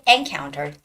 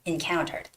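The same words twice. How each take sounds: First: The stress is on the first syllable. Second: The stress is on the second syllable. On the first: The speaker calls it wrong. "Don't say encountered" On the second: The speaker calls it right. "the stress goes on the second syllable"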